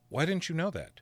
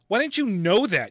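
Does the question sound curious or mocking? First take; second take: curious; mocking. First: It is asked in a plain, curious tone. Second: It is asked in a harsh, mocking tone. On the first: The speaker is simply asking for a reason. "that doesn't sound bullying" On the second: The speaker is belittling the listener. "that's bullying"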